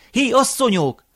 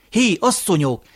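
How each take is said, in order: First: Much higher second hail, falling at the end; louder calling out. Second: Higher, falling call to the women; loud calling out. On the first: Grandfather hailing the sleeping women once more, higher insistent call. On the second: Grandfather hailing the sleeping women, first loud call. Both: A narrator's reading. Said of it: "Hangosan szólongatta őket".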